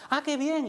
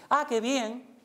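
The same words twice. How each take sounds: First: Much higher, louder delight; light up for the other person; pleased demo. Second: Higher, louder and bright with delight; pleased demo. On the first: Teacher demonstrating empathic joy: much higher, louder. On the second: Teacher showing emotional sync: higher, louder delight. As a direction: share their joy. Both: Shown as a demonstration. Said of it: "es decir".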